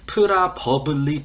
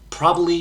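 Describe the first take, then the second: First: Each syllable is pronounced fully and separately. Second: The syllables are run together and reduced. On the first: The speaker calls it wrong. "버블리 이렇게 정직하게 발음 안 하죠" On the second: The speaker calls it right. "probably 이렇게 발음하죠"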